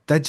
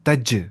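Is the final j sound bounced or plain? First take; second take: plain; bounced. First: The final j is plain, without a bounce. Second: The final j has an echoing bounce. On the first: The speaker calls it wrong. "तज नहीं" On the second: The speaker calls it right. "कलकला करना है"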